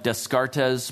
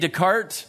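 First: The name is pronounced the way it is spelled. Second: The name is not pronounced the way it is spelled. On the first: The speaker calls it wrong. "It looks like Descartes, but that's, I'm told, not how you pronounce it" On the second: The speaker calls it right. "So René Descartes"

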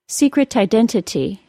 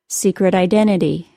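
First: Every T is pronounced as a clear, full T. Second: The T's become quick D sounds or drop out. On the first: The speaker calls it wrong. "first with all the T's as perfect T's" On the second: The speaker calls it right. "then as they are normally said"

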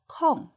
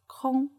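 First: The word is said with a non-level tone. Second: The word is said with a high level tone. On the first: It means something blank or spare time. "When we use first tone" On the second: It means empty or void. "When it refers to empty or void, it's pronounced as first tone"

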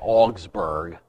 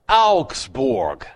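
First: It is said with an English pronunciation. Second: It is said with a German pronunciation. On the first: The speaker calls it wrong. "in English, we say Augsburg" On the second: The speaker calls it right. "It's Augsburg"

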